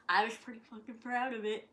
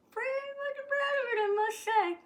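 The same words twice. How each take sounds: First: Said in the usual way. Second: Mock proud. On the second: Real, not acted.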